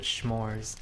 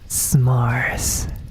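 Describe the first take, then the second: First: The word begins with a sh sound. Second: The word begins with a plain s sound. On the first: "Everybody I know always calls it schmores" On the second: "No H sound"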